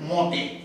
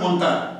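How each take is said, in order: First: It is said with a nasal vowel and no zh. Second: It is said with a clear n and final zh. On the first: "ফরাসি উচ্চারণ এটাকে বলে মতে। মতে ওরা একটা চন্দ্রবিন্দু গোছের নাকি সুরে আওয়াজ করে" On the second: "ইংরেজি উচ্চারণ অনুযায়ী শুনলে মনে হবে মন্তাজ"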